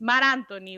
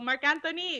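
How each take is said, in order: First: The first name ends without a k sound. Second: The first name ends with a k sound. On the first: This is how the name is really said. The speaker calls it right. "It's Mar Anthony" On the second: This is how the other host says it. The speaker calls it wrong. "like you call Mark Anthony"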